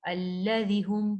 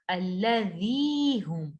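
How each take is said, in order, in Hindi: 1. शब्द का आखिरी स्वर छोटा रखा जाता है। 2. शब्द का आखिरी स्वर लंबा खींचा जाता है। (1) "इसको ऐसे नहीं पढ़ेंगे" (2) "खींचेंगे हम इसको"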